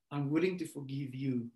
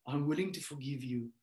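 No difference in how they are said.

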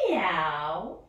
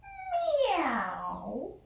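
First: A louder, rising meow; cat meow. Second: Long, high, sliding meow; high cat meow. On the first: The cat greets the dog in the story, a louder rising meow. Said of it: "said the cat to the dog". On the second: The cat meows to the dog again, long and high. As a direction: stretch out a high kitten meow. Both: Acted.

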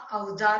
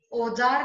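First: Said in the usual way. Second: औजार said "ojaar"; wrong vowel. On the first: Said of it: "होता है". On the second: Shown as a demonstration. Teacher correcting a mistake, औजार as "ojaar". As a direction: begin औजार on a pure o. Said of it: "नहीं होता".

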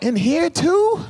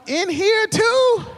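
First: High, quick rising disbelief; mock shocked question; surprised question. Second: High, very slow drawn-out shout; hammed-up horrified yell. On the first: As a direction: ask it like you just caught the smell. Smelling friend's car. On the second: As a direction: stretch each word out in disgust. Friend gets in your car.

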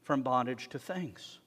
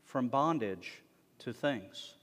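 First: "from" hit first, then a slow fall through "bondage to things"; stress on from. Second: Slow, falling, with weight on "bondage"; stress on bondage. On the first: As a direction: punch "from" and draw the rest out. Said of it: "haven't completely been free". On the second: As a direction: lean on "bondage" and let the line fall. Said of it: "teaching them how to be free". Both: Shown as a demonstration.

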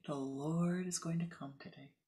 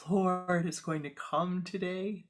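First: Said in the usual way. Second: Excited. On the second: Acted. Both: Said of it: "she says very excitedly".

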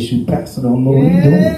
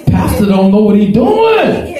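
First: Said in the usual way. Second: Mock scornful shout. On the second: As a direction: hurl it back as the scornful servant. Servant's quote repeated, shouted.

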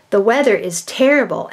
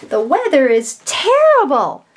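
First: "terrible" said as if asking, confused and unsure; wrong question tone. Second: "terrible" said higher and louder with strong feeling; exclamation. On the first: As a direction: read it like a puzzled question. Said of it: "they'll put a question on it". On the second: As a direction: declare it with real frustration. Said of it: "that should be an exclamation point". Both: Shown as a demonstration.

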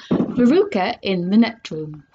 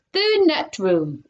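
First: Said in the usual way. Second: "The net room" read slow and deliberate, each word spelled out; slow, deliberate sign reading. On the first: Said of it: "So we are on chapter twenty-four". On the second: Acted. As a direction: read it off the door slowly. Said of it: "it said on the door".

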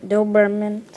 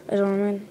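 First: DOBERMAN said louder and more fully; self-corrected pronunciation. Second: Said in the usual way. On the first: Real, not acted. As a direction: restate "Doberman" loudly, sounding out each syllable.

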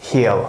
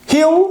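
First: "he'll" dropped very low and falling; low falling drill. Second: "He'll" jumped very high and louder, rising; high rising drill. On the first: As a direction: answer with a low, settled "he'll". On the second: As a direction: call out "He'll" bright and rising. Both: Shown as a demonstration. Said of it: "Last one".

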